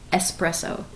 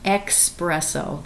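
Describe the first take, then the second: First: The word begins with an 'es' sound. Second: The word begins with an 'ex' sound. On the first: The speaker calls it right. "It is espresso" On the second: The speaker calls it wrong. "It is not espresso. There is no X"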